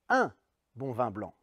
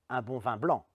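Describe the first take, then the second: First: The stress is on the word un. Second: The stress is on the word blanc. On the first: The quantity matters: just one. "La première fois, j'appuie sur un" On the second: "c'est du blanc et pas autre chose que je veux"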